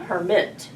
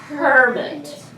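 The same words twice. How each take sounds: First: The stress is on the second syllable. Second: The stress is on the first syllable. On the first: The speaker calls it wrong. "not hermit" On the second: The speaker calls it right. "it sounds better with the accent on the first syllable. I would say hermit"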